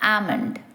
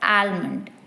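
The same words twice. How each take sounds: First: The L sound is silent in the word. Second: The L sound is pronounced in the word. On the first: The speaker calls it right. "without the L sound as almond" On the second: The speaker calls it wrong. "pronouncing the L in almond, saying it as almond"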